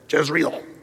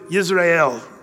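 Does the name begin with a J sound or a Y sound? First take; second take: J; Y. First: The name begins with a J sound. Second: The name begins with a Y sound. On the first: This is how English speakers say it. "That's the way we do" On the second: This is how people in Israel say it. "That's the way they'd say it"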